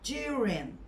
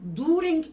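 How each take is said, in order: First: It begins with a light j sound. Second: It begins with a plain d sound. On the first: The speaker calls it right. "Hafif böyle c" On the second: The speaker calls it wrong. "Şimdi during diye okuyanlar var"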